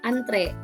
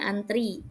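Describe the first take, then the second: First: The word ends with an 'e' vowel. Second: The word ends with an 'i' vowel. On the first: This is the standard form. "Kata baku antre" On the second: This is the common nonstandard form. "kita lebih sering bacanya antri"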